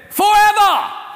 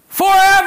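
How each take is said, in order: First: It is said in an Australian accent. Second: It is said in an American accent.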